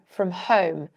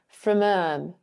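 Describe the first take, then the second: First: The h at the start of home is pronounced. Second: The h at the start of home is dropped. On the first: "I would say home" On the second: "not pronounce the H in home"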